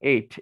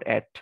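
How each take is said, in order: First: The vowel is a long 'ay' sound, like eight. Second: The vowel is a short 'a' sound, like at. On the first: The speaker calls it right. "মানে এটা উচ্চারণ এইট" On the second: The speaker calls it wrong. "Not অ্যাট"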